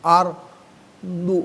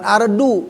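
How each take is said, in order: First: The d sound is heavy and emphatic. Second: The d sound is light and plain. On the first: The speaker calls it right. "Ardu, bukan ardu, bukan kudal" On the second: The speaker calls it wrong. "bukan ardu, bukan kudal"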